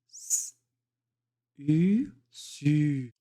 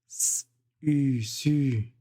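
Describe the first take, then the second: First: It is said at a slower pace. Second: It is said at a faster pace.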